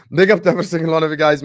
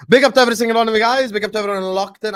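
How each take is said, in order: First: Loud, fast shout-out through a laugh; fast laughing host catchphrase; hyped shout-out with a laugh. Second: High, fast, loud shout-out; fast hyped host catchphrase. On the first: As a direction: laugh and hype the crowd. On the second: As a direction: fire up the viewers. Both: Acted. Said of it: "channel shout-out catchphrase".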